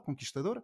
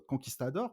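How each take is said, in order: First: Conquistador with a soft sh before the t and an l at the end; Portuguese-style Conquistador. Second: Said in the usual way. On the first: Shown as a demonstration. Correcting the album name to its Portuguese sound. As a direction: say Conquistador the way a Portuguese speaker would.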